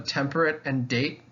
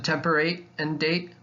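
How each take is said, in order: First: The end of 'temperate' does not rhyme with 'date'. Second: The end of 'temperate' rhymes with 'date'. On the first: "doesn't necessarily work" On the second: "would be the way that Shakespeare would have said it"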